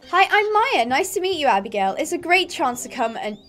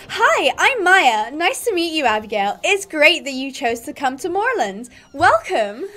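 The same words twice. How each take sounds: First: First try at Maya. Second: Put-on American accent. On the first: Acted. Stable girl greeting a new rider, lightly voiced character. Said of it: "I'm gonna do voices for the characters". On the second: Stable girl welcoming a new rider, American accent. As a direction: greet in an exaggerated American accent.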